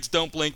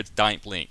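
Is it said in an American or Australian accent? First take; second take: American; Australian. First: It is said in an American accent. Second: It is said in an Australian accent.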